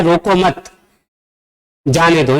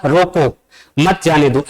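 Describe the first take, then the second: First: "रोको मत" joined, long pause, then "जाने दो"; pause after मत. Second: "रोको", a pause, then "मत जाने दो" together; pause after रोको. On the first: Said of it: "जबकि यहाँ क्या कह रहा है". ("मत" के बाद लंबा विराम, फिर "जाने दो") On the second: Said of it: "यहाँ हमने कॉमा लगा दिया". ("रोको" के बाद विराम, फिर "मत जाने दो") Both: Shown as a demonstration.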